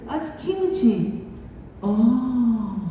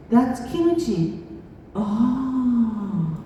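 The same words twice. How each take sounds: The two takes are said the same way.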